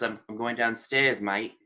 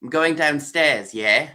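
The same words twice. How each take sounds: First: Lightly done Australian accent; casual Australian accent, a bit softer. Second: Lightly done English accent, drawn out; English accent with a questioning tag at the end. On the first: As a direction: mimic how they say it in Australia. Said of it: "then you say in Australia". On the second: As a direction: mimic how they say it in England. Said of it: "somebody will say in England". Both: Shown as a demonstration.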